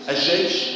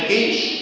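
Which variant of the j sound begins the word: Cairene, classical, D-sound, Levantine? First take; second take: Levantine; Cairene. First: The word starts with the Levantine j sound. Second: The word starts with the Cairene j sound. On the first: This is the Levantine regional pronunciation. "دي اسمها الجيم الشامية" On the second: This is the Cairo regional pronunciation. "دي اسمها الجيم القاهرية"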